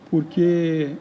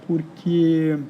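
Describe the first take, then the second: No difference in how they are said.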